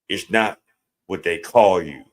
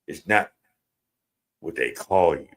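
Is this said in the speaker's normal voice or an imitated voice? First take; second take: normal voice; imitated voice. First: It is said in the speaker's normal voice. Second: It is said in an imitated, put-on voice.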